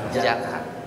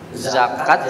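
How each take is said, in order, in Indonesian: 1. Kata ini dimulai dengan bunyi j. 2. Kata ini dimulai dengan bunyi z.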